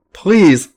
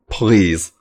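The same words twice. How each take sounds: First: "please," rising high in a desperate plea; high pleading please. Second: Said in the usual way. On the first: A narrator's reading. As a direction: beg "please," high and urgent. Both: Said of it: "begging Sammy to come".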